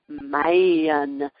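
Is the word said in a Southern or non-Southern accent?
Southern. It is said in a Southern accent. The student said it this way. "I was saying man"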